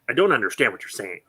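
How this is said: It is said in a doubting, disbelieving tone.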